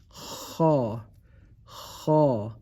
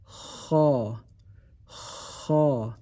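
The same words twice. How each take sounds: The two takes are said the same way.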